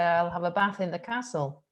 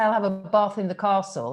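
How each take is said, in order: First: The vowels are short and flat. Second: The vowels are long and drawn out. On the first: "I say" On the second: "I don't say"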